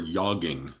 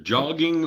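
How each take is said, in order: First: The word begins with a soft Y sound. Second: The word begins with a hard J sound.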